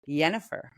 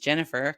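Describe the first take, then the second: First: The name is said with Eastern European pronunciation. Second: The name is said with English pronunciation. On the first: "people from Eastern Europe who will call it Yennefer" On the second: "my name is Jennifer"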